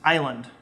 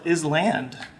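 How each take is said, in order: First: The S is silent, like 'eye-land'. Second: The S is pronounced, like 'is land'.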